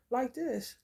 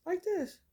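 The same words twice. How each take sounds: First: Said in the usual way. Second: "this" jumped up high and falling; higher take. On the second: Shown as a demonstration. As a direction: say "like this" pitched way up, mimicking him. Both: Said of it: "he will run over my house".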